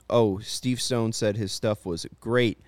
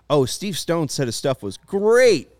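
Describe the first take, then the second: First: It is said in a plain, undramatic way. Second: It is said in an exaggerated, dramatic way.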